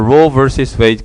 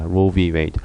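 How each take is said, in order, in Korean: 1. 중간 단어는 versus로 전부 읽습니다. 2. 중간 단어는 글자 v로 읽습니다. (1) "Roe versus Wade라고 읽고" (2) "s를 빼고 Roe v Wade라고 읽기도 합니다"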